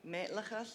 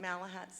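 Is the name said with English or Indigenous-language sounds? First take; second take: Indigenous; English. First: The name is said with Indigenous-language sounds. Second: The name is said with English sounds. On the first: This is the people's own form of the name. "is the way you pronounce it" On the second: This is the anglicized form of the name. "the anglicized version"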